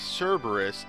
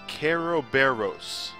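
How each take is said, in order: First: The name is said with English sounds. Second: The name is said with Japanese sounds.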